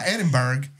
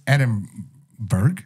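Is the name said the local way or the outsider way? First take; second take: outsider; local. First: The name is said with an outsider's pronunciation. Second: The name is said with the local pronunciation. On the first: The speaker calls it wrong. "It's not Edinburgh" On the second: The speaker calls it right. "That's how you like really, really say it"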